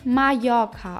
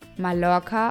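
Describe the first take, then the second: First: The double L sounds like a 'y'. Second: The double L sounds like an 'l'. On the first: "Der doppelte LL wird Ja ausgesprochen. Wie Mallorca auf Spanisch" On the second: "Mallorca auf Deutsch"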